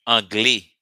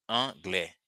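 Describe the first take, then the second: First: "anglais" ending in a closed e, without the open "eh"; loud demo of "anglais" without its grave accent. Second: "anglais" ending in an open "eh" sound; "anglais" pronounced ahn-GLEH. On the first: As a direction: punch out "anglais" as ahn-GLEE, accent missing. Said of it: "Without it, it would sound". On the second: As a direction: say "anglais" with the grave-accent è, like "eh". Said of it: "Just for the sound eh". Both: Shown as a demonstration.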